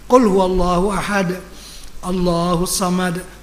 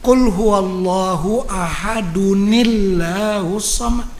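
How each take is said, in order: First: There is a breath pause between the phrases. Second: The phrases are joined with a linking sound. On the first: The reciter stops at the end of the verse. "Begitu. Jangan berhenti tak bernafas" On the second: The reciter continues without stopping. "Kalau nak lanjut"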